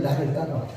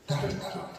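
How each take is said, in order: First: Said in the usual way. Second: "나를 따라와라" whispered, almost no voice; whispered call. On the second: Acted. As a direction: breathe "나를 따라와라" out as a hush. Preacher voicing Jesus' call. ("나를 따라와라"를 속삭이듯)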